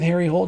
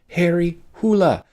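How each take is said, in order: First: The surname is said in one syllable. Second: The surname is said in two syllables. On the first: This is the anglicized reading of the name. The speaker calls it wrong. "Sticking with Harry Hole just seems like a weird editorial choice" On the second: This is how the name is said in its home language. The speaker calls it right. "the Norwegian pronunciation of his last name is Hula"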